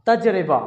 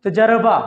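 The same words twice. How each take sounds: First: तजरिबा with a clear short i after the r, taj-ri-ba; teacher models the careful तजरिबा; correct pronunciation. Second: तजर्बा said as taj-ar-ba, only two syllables after taj; teacher demonstrates the mistaken तजर्बा; common wrong pronunciation. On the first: Tutor shows students the correct तजरिबा. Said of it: "जीम साकिन है, रे के नीचे जेर है". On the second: Tutor shows students how people mispronounce तजर्बा. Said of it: "लोग अदा करते हैं आम बोलचाल में". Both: Shown as a demonstration.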